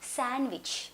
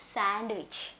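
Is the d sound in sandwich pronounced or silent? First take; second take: silent; pronounced. First: The d sound is left out. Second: The d sound is clearly pronounced. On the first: The speaker calls it right. "అసలు ఎలా పలకాలి? శాండ్విచ్" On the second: The speaker calls it wrong. "Not శాండ్విచ్"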